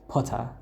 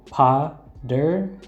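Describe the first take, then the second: First: The middle consonant is a crisp T sound. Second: The middle consonant sounds like a soft D. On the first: "which is what they say" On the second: "I say Potter, like with the D"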